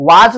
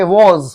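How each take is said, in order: First: "was" as "waaj", long aa and final j; wrong pronunciation. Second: "was" as "woz", rounded o and z ending; correct pronunciation. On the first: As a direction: say "was" the mistaken way, rhyming with "taaj". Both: Shown as a demonstration. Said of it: "इसको was नहीं कहेंगे".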